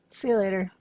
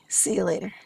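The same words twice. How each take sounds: First: It sounds casual, like a plain goodbye. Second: It sounds knowing, like a shared plan. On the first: It simply means goodbye. "Or "see you later" could just mean bye" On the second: They will meet at an agreed place. "Or it might mean "I'll see you at our pre-arranged spot.""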